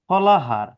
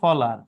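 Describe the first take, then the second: First: The h sound is pronounced in the middle. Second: The h sound is dropped from the middle.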